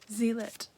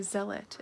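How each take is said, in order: First: "Zealot" said ZEE-lot with a long ee; "Zealot" with long ee, stress first. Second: "Zealot" said ZEL-ot with a short e; "Zealot" with short e, stress first. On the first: Unsure of a book name, long ee version. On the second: Trying a book name, short e version. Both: Shown as a demonstration.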